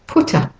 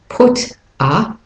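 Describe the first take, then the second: First: The words run together smoothly. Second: The words are said separately.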